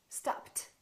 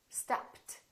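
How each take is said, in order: The two takes are said the same way.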